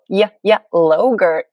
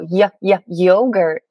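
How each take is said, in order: First: The last word begins with an L sound. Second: The last word begins with a Y sound. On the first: The speaker calls it wrong. "they'd go" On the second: The speaker calls it right. "we'd go"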